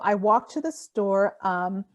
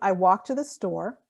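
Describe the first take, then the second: First: A filler sound 'um' follows the phrase. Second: A silent pause follows the phrase. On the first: The speaker calls it wrong. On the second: The speaker calls it right. "So if you pause"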